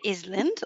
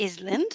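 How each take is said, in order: First: The S sound is pronounced in the word. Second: The S sound is pronounced in the word.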